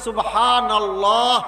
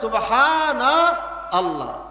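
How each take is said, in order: First: The words are run together without a break. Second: The words are said apart with a break. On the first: "মিলিয়ে দিলে" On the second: "না মিলালে"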